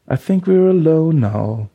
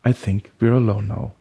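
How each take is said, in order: First: High, loud, slow singing; sung pop refrain. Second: Said in the usual way. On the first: Acted. Eighties refrain bursting into his head, sung out. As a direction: sing it out like an eighties chorus. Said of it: "setzte der Refrain des achtziger Hits ein".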